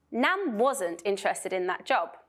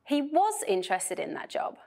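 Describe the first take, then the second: First: Said in the usual way. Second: Was hit to contradict; stress on was. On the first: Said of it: "disagreement with the previous statement". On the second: Shown as a demonstration. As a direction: punch was, correcting the previous statement. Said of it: "emphasize disagreement with the previous statement".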